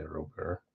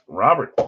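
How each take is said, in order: First: Robert pronounced "roh-BAIR"; French-style pronunciation. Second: Robert pronounced "RAH-bert"; English-style pronunciation. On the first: Host unsure of the player's name, Robert as "roh-BAIR". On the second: Host testing the player's name, Robert as "RAH-bert". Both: Real, not acted. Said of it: "think you say Robert".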